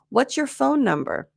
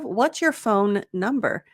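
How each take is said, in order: First: One single N sound links the two words. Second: Two separate N sounds are pronounced between words. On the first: The speaker calls it right. "when really you just needed one" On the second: The speaker calls it wrong. "trying to shove two N sounds in there"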